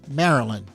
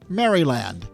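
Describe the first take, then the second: First: The Y and D sounds are dropped. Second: The Y and D sounds are pronounced. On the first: The speaker calls it right. "There's no Y, there's no D" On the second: The speaker calls it wrong. "Maryland is not pronounced Maryland"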